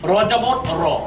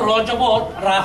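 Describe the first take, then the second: First: The syllable ends without a clear 'aa' vowel. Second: The syllable ends with a clear 'aa' vowel. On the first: The speaker calls it right. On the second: The speaker calls it wrong.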